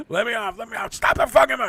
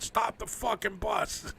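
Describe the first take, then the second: First: Higher, louder, faster frantic shout; panicking on a packed bus, yelling to be let off; panicked yell. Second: Panicked passenger yelling at the driver, lightly replayed; retold yell. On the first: Retold or imitated. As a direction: beg to get off, rushing the words. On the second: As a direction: drag out the demand to stop the bus. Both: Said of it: "I just yelled out".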